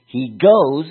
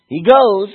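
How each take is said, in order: First: "goes" lifted a little, firmer; a first, moderate push on "goes"; mild stress on "goes". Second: "goes" punched much higher and louder; big emphatic "GOES"; strong stress on GOES. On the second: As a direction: really hammer the word "goes". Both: Shown as a demonstration. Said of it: "let's emphasize goes".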